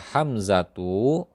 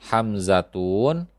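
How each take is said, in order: First: The word ends with the sound 'u'. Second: The word ends with the sound 'un'. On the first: The speaker calls it right. "yang benar adalah" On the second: The speaker calls it wrong. "lafaz yang keliru"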